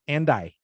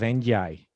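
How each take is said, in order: First: The words join with no y-like glide. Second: A y-like glide is heard before 'I'. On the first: The speaker calls it right. "You need to take that out" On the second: The speaker calls it wrong. "there's a little bit of a y sound"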